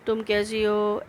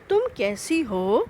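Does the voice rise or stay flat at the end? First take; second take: flat; rise. First: It is said flatly, not like a question. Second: It is said with a rising question tune.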